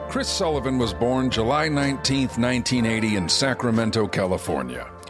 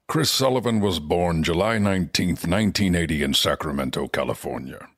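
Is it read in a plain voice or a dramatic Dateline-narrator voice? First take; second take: plain; dramatic Dateline. First: It is read in a plain, normal voice. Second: It is read in an ominous Dateline-narrator voice.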